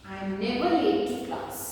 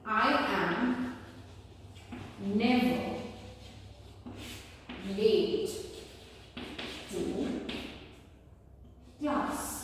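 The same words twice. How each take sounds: First: Said in the usual way. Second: Each word of "I am never late to class" said alone with long pauses; slow, spaced classroom dictation. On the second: Shown as a demonstration. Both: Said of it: "I say".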